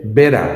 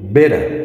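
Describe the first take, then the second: Both takes have the same delivery.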